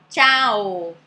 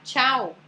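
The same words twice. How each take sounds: First: "tchau" loud and stretched, ending on "oh"; Italian final O. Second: "tchau" the Brazilian way, ending in "oo"; Portuguese final U. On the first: Teacher contrasting two versions, "tchau" then with a long final O. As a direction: draw "tchau" out to an open O, chah-oh. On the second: Teacher contrasting two versions, "tchau" first with a final U. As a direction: keep "tchau" shorter, closing on U. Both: Shown as a demonstration. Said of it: "olha como muda".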